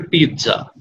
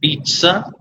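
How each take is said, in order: First: पिज़्ज़ा said the everyday Indian way, pit-za; common pizza. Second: पिज़्ज़ा with a clear ts sound, pits-sa; पिज़्ज़ा said pits-sa like in Italian; correct pizza. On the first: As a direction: say पिज़्ज़ा as pit-za, the usual mispronunciation. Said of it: "mispronounce करते हैं और पिज़्ज़ा कह के". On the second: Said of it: "इसका उच्चारण होता है". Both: Shown as a demonstration.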